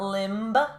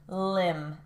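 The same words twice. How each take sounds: First: A B sound is heard at the end. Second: The word ends on the M sound. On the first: The speaker calls it wrong. "It's not limb" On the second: The speaker calls it right. "that B is silent"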